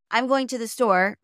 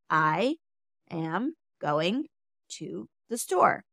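First: The words are rushed and run together. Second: The words come slowly, one at a time. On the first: "rushing through it" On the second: "take your time with each word"

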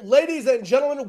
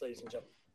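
First: It is said in his announcer commentary voice. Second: It is said in his normal speaking voice.

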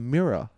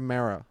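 First: The word is said in a plain accent. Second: The word is said in an imitated accent.

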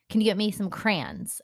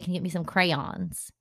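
First: Crayons is said the New Jersey way. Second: Crayons is said a non-New Jersey way. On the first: "I say crayon. Like, crayon" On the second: "I don't say"

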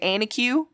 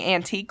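First: It is said with a Southern Appalachian accent. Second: It is said in a standard way.

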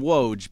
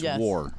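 First: It is said with no r sound. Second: It is said with an r sound. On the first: This is how people usually say it. The speaker calls it wrong. "we call him Woj" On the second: This is the real Polish pronunciation. The speaker calls it right. "but it's War"

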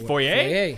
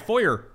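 First: The word is given a French pronunciation. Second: The word is given an American pronunciation. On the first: The speaker calls it right. "You mean foyer?" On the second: The speaker calls it wrong. "It's like when Americans say Foyer, they sound like the dumbest people in the world"

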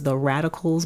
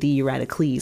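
First: The name is said in a plain English way. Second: The name is said in a Greco-Roman way. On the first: The speaker calls it wrong. "I thought his name was The Radicals" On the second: The speaker calls it right. "like a Greek or a Roman pronunciation"

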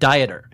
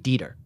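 First: It is pronounced like the English word dieter. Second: It is pronounced the way the given name is. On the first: It names a person who diets. "It's the English word Dieter" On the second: It is a person's given name. "as a name, it's more likely to be Dieter"

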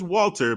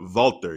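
First: The name starts with a W sound. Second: The name starts with a V sound. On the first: The speaker calls it wrong. "Not just Walter" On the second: The speaker calls it right. "You gotta throw that like V sound in there"

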